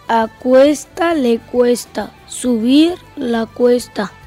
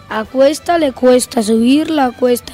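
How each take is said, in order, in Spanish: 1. Se habla a velocidad lenta. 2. Se habla a velocidad normal. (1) "Por la velocidad lenta" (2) "Velocidad normal"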